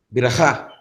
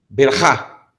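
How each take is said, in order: No difference in how they are said.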